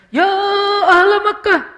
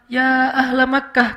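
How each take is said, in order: First: It is shouted loudly with an exaggerated tone. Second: It is called out at a moderate, measured volume.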